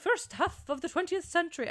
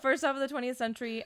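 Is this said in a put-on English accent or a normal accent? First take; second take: English accent; normal accent. First: It is said in a put-on English accent. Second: It is said in the speaker's normal accent.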